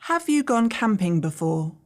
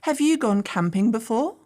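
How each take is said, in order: First: The voice falls at the end. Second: The voice rises at the end.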